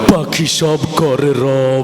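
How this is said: It is recited in a fierce, menacing voice. "আরো ভয়ঙ্কর ভাবে বললো"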